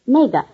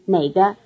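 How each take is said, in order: First: The first syllable has a falling tone. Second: The first syllable has a low tone. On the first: It points out that one. "are all in the following tone" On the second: It asks which one. "are both in the low tone"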